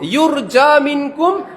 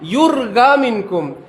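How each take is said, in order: First: The first word has a j sound. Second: The first word has a hard g sound. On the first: "লেখে জিম দিয়ে" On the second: "পরে"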